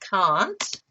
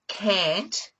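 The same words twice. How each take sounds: First: It is said with a long, open Australian vowel. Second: It is said with a short, flat American vowel. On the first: This is the usual local way of saying it. "instead of" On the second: This is how a child copying American shows says it. "she rolls her R's"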